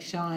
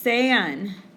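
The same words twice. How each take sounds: First: It sounds like the English name Shawn. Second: It does not sound like the name Shawn. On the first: The speaker calls it wrong. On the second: The speaker calls it right.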